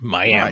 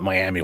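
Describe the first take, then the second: First: The name ends with an 'uh' sound. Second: The name ends with an 'ee' sound. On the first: The speaker calls it right. "eventually it's Miami" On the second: The speaker calls it wrong. "I used to call it Miami when I first moved here"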